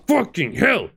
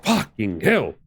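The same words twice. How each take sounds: First: Higher, exasperated yelp of a curse; real gamer frustration yelp; frustrated outburst. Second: Said in the usual way. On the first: Real, not acted. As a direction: blurt it out, fed up. Repeats the curse, then louder.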